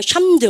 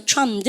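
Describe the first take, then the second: First: Charmed misread as "샴드", opening on SH; "샴드" with the mistaken SH start; wrong SH pronunciation. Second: "charmed" begun with a CH sound; "charmed" opening on CH, in one syllable; correct CH pronunciation. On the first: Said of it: "이거 읽으라고 하면 샴드 혼날 줄". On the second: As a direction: say "charmed" with CH, not SH. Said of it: "세시 발음 아시죠". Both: Shown as a demonstration.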